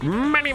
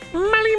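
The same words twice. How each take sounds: First: It is said in a lower character voice. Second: It is said in a higher character voice. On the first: "I imagine he's like Mister Krabs" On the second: "But he has a higher voice"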